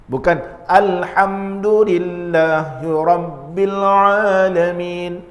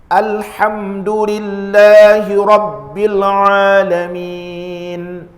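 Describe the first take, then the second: First: The vowel after the lam is drawn out. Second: The vowel after the lam is held briefly. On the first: The speaker calls it wrong. "Bukan ... dia sudah masuk pada ha" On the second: The speaker calls it right. "la, la, dua harakat"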